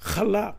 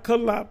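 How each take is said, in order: First: The word begins with a throaty h sound. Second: The word begins with a hard k sound. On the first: The speaker calls it right. "but chalap" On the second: The speaker calls it wrong. "Not kalap"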